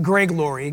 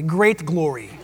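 First: "gray glory" with a plain long ay, no t; the mistaken "gray" instead of great, said on purpose; wrong word. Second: "great glory" with the t clearly said; correct word. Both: Shown as a demonstration.

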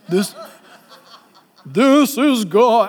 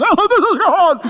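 First: Mock booming God voice. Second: High, laughing mock awe. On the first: Preacher mocking a TV God voice to his church, slow and booming. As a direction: announce it like a movie God. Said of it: "I don't think God talks like that". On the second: Preacher laughing at TV shows, high mock awe. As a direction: gasp it with a laugh. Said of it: "those T V shows make us".

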